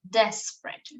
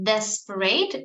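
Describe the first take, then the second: First: The word is said with two syllables. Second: The word is said with three syllables. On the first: The speaker calls it right. "Desperate is only two syllables" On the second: The speaker calls it wrong. "We don't say"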